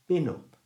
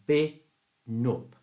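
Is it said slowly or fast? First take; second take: fast; slowly. First: It is said faster. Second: It is said slowly.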